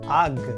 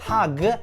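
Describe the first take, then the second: First: It starts directly with the vowel, no H. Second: It starts with an audible H sound.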